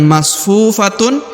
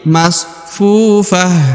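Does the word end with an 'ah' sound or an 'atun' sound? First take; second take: atun; ah. First: The word ends with a full 'atun' syllable. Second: The word ends with a short 'ah' sound. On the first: The speaker calls it wrong. "bukan masfufatun" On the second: The speaker calls it right. "tapi masfufah"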